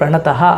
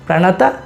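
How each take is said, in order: First: The word ends with a breathy h sound. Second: The word ends on a plain vowel. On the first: The speaker calls it wrong. "ಅದು ಪ್ರಣತಃ ಅಲ್ಲ" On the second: The speaker calls it right. "ಪ್ರಣತ ಕ್ಲೇಶನಾಶಾಯ ಅಂತ ಉಚ್ಚಾರಣೆ ಮಾಡಿ"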